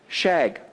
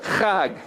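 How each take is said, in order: First: The word begins with a soft 'sh' sound. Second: The word begins with a throaty 'kh' sound. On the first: The speaker calls it wrong. "English people trying to speak Hebrew words not very well" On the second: The speaker calls it right. "instead of"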